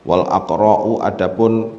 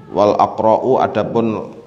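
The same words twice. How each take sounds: No difference in how they are said.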